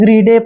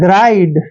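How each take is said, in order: First: The vowel sounds like 'ee', ending in 'deh'. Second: The vowel sounds like 'eye', ending in 'd'. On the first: The speaker calls it wrong. "इसको ग्रीडे पढ़ते हैं जो कि गलत है" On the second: The speaker calls it right. "इसको पढ़ेंगे हम ग्राइड"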